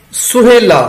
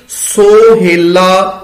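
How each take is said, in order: First: ਸੁਹੇਲਾ said suhela with a short u; ਸੁਹੇਲਾ as in ordinary speech, suhela; everyday suhela. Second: ਸੋਹੇਲਾ drawn out very slowly with an o; ਸੋਹੇਲਾ slow and careful, o in the first syllable; scripture reading sohela. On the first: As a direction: give ਸੁਹੇਲਾ its spoken u sound. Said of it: "ਇਹਦਾ ਉਚਾਰਨ ਵੀ ਸੁਹੇਲਾ ਹੀ ਕੀਤਾ ਜਾਂਦਾ ਹੈ". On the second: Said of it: "ਫਿਰ ਅਸੀਂ ਕੀ ਪੜਾਂਗੇ ਜੀ". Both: Shown as a demonstration.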